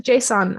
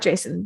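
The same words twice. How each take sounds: First: "json" with a full, open "on" ending; preferred pronunciation json. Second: "Jason" with a weak second syllable; rejected pronunciation Jason. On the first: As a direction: say "json" as JAY-sawn. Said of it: "I really hope it's pronounced json". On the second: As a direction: say "Jason" like the first name. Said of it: "I'm pretty sure it's not Jason". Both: Shown as a demonstration.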